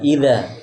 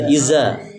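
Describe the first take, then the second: First: The middle consonant is a th sound. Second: The middle consonant is a z sound. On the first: The speaker calls it right. "tapi ida" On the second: The speaker calls it wrong. "jangan dibaca iza"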